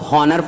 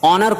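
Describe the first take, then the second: First: The word starts with an H sound. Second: The word starts with no H sound. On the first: The speaker calls it wrong. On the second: The speaker calls it right.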